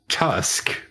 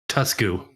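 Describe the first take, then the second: First: It is said the English way, ending in 'k'. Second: It is said the Japanese way, with a final vowel.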